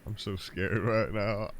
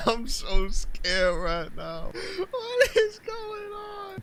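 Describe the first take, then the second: First: Said in the usual way. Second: High, slow, wailing panic; mock scared. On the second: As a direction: squeal it out in hammed-up terror.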